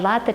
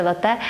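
First: Лате stressed on "ла", LA-te; first-syllable stress. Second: Лате stressed on "те", la-TE; last-syllable stress. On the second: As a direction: put the weight on the final syllable of лате. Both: Shown as a demonstration. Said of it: "наголосів".

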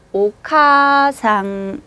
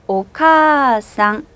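First: 오카상 with 카 and 아 said apart; 오카상 in two separate beats; wrong split vowel. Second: 오카상 with a long drawn 카, slow; 오카상, stretch 카 over two beats; long vowel. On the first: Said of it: "이렇게 안 하고요". (오카상을 끊어서 틀리게) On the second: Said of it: "거의 들리지 않아요". (오카상 카를 길게 끌어서) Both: Shown as a demonstration.

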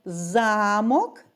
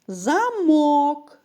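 First: Замок with ЗА stressed: ЗА-мок; замок stressed on first syllable, castle. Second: Замок with МОК stressed: за-МОК; замок stressed on last syllable, lock; stress on second syllable. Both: Shown as a demonstration. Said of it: "Пропоную порівняти звуки слова замок".

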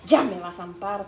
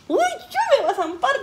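First: Said in the usual way. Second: Much higher, worried; high scared child voice; high fearful quote. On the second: Retold or imitated. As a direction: squeak it like a scared kid. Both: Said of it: "decía".

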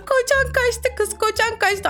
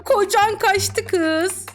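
First: Higher mocking singsong. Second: Slow mocking singsong. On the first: Streamer gleefully taunting a girl, high mocking singsong. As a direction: tease it up high and drawn. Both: Teasing chat line singsong.

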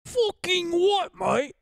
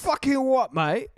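First: Slow, high mock British geezer; British accent. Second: High, hammed-up British geezer; British accent. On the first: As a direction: drag it out in a Cockney voice. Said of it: "repeats the British phrase". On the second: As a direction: bark it like a London lad. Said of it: "mocking British way of talking".

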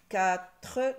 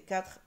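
First: "Quatre" in two loud beats; loud, split sounding-out of "Quatre"; syllable by syllable. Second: Said in the usual way. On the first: Shown as a demonstration. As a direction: separate "Qua" and a full "tre". Teacher trying out syllables.

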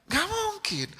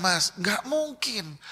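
First: "Nggak mungkin" jumped up much higher, mocking disbelief; incredulous no. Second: Slow firm no. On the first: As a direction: toss "Nggak mungkin" up high like it's absurd. ("Nggak mungkin" diucapkan jauh lebih tinggi, tak percaya) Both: Shown as a demonstration. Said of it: "Saya bilang".

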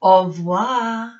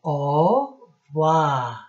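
First: Au revoir said out loud as o-wa, higher and louder; French pronunciation with the class. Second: Au revoir whispered slowly as o-wa; French pronunciation. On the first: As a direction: lead the class in saying Au revoir. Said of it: "Can you say it with Miss B?". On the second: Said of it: "How do we say goodbye in French?". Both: Shown as a demonstration.

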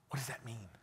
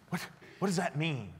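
First: Breathless whisper of disbelief; stunned whisper. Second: Higher, stumbling repeat out of disbelief; surprised repeat. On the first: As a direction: barely voice it, shaken by what you heard. Stunned by the driver's reveal. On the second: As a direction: say it again aloud, still stunned. Repeats the question, voice returning. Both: Retold or imitated.

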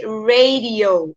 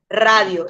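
First: Slow "radio" as ray-dee-oh; English radio. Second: Said in the usual way. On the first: Shown as a demonstration. Teacher modelling English for the class, radio as ray-dee-oh. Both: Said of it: "En inglés se dice radio".

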